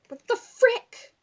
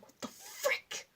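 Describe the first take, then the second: First: Loud, slow, higher exasperated cry; mock exasperation. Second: Very high, slow, squeaky gasp of alarm; squeaky frick. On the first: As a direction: drag it out, fed up with the badge. Frustrated at ruined badge. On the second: Retold or imitated. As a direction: squeak it out, spooked while home alone. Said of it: "so I'm like".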